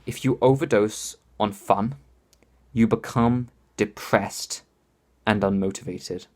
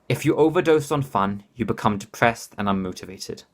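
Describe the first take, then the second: First: It is said slowly and deliberately. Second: It is said at normal speed.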